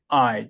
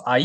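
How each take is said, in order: First: I gliding down; falling diphthong. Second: I as two syllables, Korean accent; Korean-accented 'I', split a-i. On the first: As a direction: say 'I' as one syllable falling off. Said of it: "떨어져야 되고". (I를 떨어지는 이중모음으로) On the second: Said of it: "I 이렇게 하기가 쉬워요". (한국식 악센트로 I를 '아-이') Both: Shown as a demonstration.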